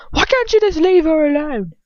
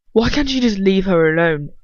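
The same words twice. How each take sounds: First: Much higher, louder, near-shrieking shout; furious shout. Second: A louder, furious shout at Lucius. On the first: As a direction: shriek it in outrage. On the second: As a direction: yell it at him, fed up. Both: Acted. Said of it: "Ron shouts at him".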